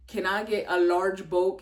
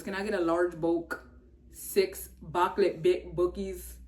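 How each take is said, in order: First: Said in the usual way. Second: A light put-on voice for the McDonald's guy; quoting a viral video in his voice, loosely; imitating the viral guy. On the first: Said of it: "And he goes". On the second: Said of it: "He goes".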